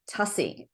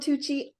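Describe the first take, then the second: First: The surname rhymes with fussy. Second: The surname does not rhyme with fussy. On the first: This is how the family says the name. The speaker calls it right. "it's actually Tussie, rhymes with fussy" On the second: This is how most people say the name. The speaker calls it wrong. "I am [name] all the time"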